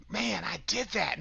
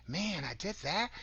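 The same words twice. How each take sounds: First: A sigh-of-relief statement, falling at the end; relieved. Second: Mild disbelief, rising at the end; surprised. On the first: Speaker showing listeners how to credit themselves, relieved. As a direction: marvel in relief at getting through it. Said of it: "with relief". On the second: Speaker showing how people doubt their achievements, surprised. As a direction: turn it into a surprised question. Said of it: "express them with surprise". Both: Shown as a demonstration.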